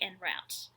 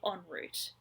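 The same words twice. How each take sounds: First: It is said the American way, like Josh. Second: It is said the Australian way.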